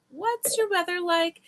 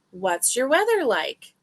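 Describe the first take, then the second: First: What's your weather like, pitched high and lilting; high sing-song question. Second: Said in the usual way. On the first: Shown as a demonstration.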